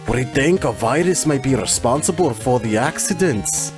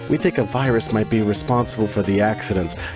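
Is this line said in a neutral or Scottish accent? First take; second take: Scottish; neutral. First: It is said in an attempted Scottish accent. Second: It is said in the speaker's ordinary accent.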